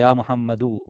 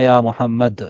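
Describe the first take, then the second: First: The name ends with a final vowel. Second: The name ends on a bare consonant. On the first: The phrase continues without stopping. "யா முஹம்மது என்று சொல்லுவோம்" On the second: The speaker stops at this word. "யா முஹம்மத் என்று தான் நிறுத்துவோம் நிறுத்தும் பொழுது"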